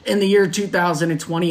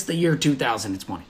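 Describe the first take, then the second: First: Said in the usual way. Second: Ominous low. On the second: Acted. Host warning podcast listeners about the year, ominous low and soft. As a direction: drop low and soft, full of doom.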